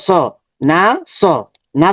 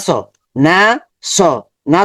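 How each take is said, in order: No difference in how they are said.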